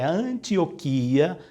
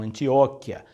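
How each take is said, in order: First: The stress falls on the syllable with I. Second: The stress falls on the syllable with O. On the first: The speaker calls it right. "o acento recai no I" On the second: The speaker calls it wrong. "o acento não cai no O"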